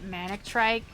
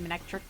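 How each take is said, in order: First: The last syllable sounds like 'trike'. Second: The last syllable sounds like 'trick'. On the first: The speaker calls it wrong. "I think I always used to pronounce it Manectrike" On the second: The speaker calls it right. "but I think it's supposed to be Manectric"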